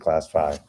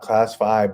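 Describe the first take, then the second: First: It is said plainly, in passing. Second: It is said proudly, in a puffed-up way. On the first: The speaker calls it wrong. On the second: The speaker calls it right.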